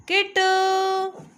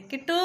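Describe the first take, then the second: First: High, long drawn-out call of Kittu, louder. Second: Said in the usual way. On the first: Real, not acted. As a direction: stretch Kittu slowly and high to catch her attention. Calling the baby's name. (Kittu को ऊँची खिंची आवाज़ में पुकारना)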